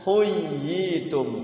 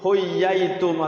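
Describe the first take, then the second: First: The doubled y is followed by an i vowel. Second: The doubled y is followed by an a vowel. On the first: The speaker calls it right. "setiap ya bertasyid kasroh bertemu ya sukun" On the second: The speaker calls it wrong. "ya-nya fathah ... ya nggak bisa"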